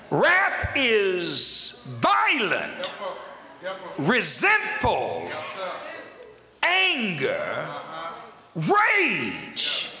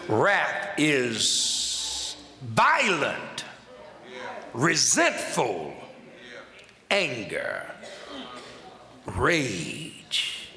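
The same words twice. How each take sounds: First: Very slow shouted emphasis on each word; forceful, deliberate. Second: Very slow, low-pitched word by word; "violent" drawn out, then sink low; solemn pulpit pauses between words; weighty, deliberate. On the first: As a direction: punch "violent" and "rage", long pauses. Repeats definition with rising force. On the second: Repeats definition, weighting each word. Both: Shown as a demonstration.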